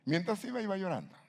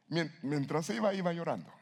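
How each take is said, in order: First: "mientras iba" much higher, stress falling on "iba"; emphatic reading. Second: "iba llorando" lifted high, "iba" stressed; stressed reading. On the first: Preacher repeats the verse for emphasis, emphatic. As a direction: pitch "mientras iba, iba llorando" high and insistent. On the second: Preacher rereads the verse to the congregation, stressed. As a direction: read "mientras iba, iba llorando" up high for weight. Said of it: "¿Qué entiende usted por esto?". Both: Shown as a demonstration.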